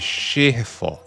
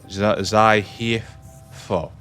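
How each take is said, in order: First: It begins with a sh sound, Chinese style. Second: It begins with a z sound like xylophone. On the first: "It could be like pronounced like Chinese" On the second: "It's like Zai is in xylophone"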